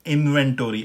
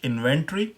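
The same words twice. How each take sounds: First: It is said in an American accent. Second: It is said in a British accent.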